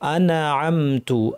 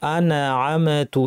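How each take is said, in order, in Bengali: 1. ন ও ম ঝাঁকুনি দিয়ে ছাড়া হয়। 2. ন ও ম ঝাঁকুনি দিয়ে ছাড়া হয়।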